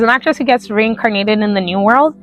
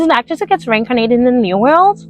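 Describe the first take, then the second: First: It is spoken with a strong American accent. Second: It is spoken without an American accent.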